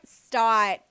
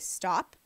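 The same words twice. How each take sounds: First: The voice is bright, playful and excited. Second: The voice is quiet, deep and firm. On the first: The speaker is happy and teasing. "but when I'm like happy, I'm like" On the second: The speaker is serious and wants to move on. "when I am serious, my tone doesn't go louder... My tone goes quieter usually, or very specific"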